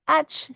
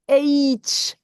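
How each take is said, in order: First: The letter is named as in French, 'ash'. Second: The letter is named as in English, 'aitch'. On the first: The speaker calls it wrong. "C'est pas H" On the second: The speaker calls it right. "c'est H. Waouh, quatre sons à l'intérieur"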